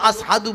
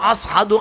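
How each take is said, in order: Both takes have the same delivery.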